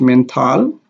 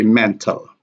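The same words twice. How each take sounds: First: "mental" said men-TAL, clear "a" in the last syllable; mispronounced "mental" with a strong second syllable; "mental" with full final vowel. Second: "mental" said MEN-tl, schwa in the last syllable; "mental" with weak ending. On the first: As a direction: give "mental" an unreduced "tal" ending, pitch rising. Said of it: "is not correct". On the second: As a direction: reduce the end of "mental" to an unstressed "təl". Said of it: "pronounced with a weak stress". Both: Shown as a demonstration.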